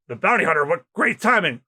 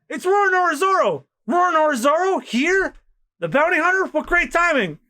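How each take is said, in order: First: Said in the usual way. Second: Much higher, thrilled exclamations; excited crowd. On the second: Acted. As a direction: gasp at the famous hunter. Excited crowd spots Zoro.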